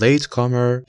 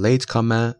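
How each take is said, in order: First: "late comer" with the final r sounded; American pronunciation. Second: "late comer" ending in an open vowel, no r; British pronunciation. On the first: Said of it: "late comer یا late comer توی لهجهٔ". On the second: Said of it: "توی لهجهٔ بریتانیایی". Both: Shown as a demonstration.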